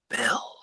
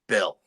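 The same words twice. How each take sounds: First: It is said in a whisper. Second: It is said in a clear, full voice.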